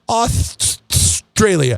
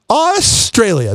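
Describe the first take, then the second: First: The word gets stuck with a stutter. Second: The word comes out smoothly without getting stuck. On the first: "when you put your tongue between your teeth" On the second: "when you don't put your tongue underneath your gums"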